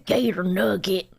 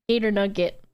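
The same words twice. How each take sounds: First: It is said in an imitation of Josh's voice. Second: It is said in the speaker's normal voice.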